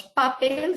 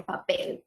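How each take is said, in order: First: "papel" as PA-pel, stress on PA; wrong first-syllable stress. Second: "papel" as pa-PEL, stress on PEL; last-syllable stress. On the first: Teacher showing what we don't say, "papel" stressed on PA. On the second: Teacher giving the correct word, "papel" stressed on PEL. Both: Shown as a demonstration. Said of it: "va en la última sílaba".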